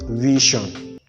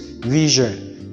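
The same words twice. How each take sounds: First: The middle consonant is not a 'zh' sound. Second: The middle consonant is a 'zh' sound. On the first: The speaker calls it wrong. "and not vision" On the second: The speaker calls it right. "It is vision"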